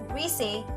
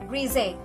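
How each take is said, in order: First: The middle consonant is a hissing S sound. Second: The middle consonant is a buzzing Z sound. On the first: "pronounce greasy with an S sound" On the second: "with a Z sound like greasy"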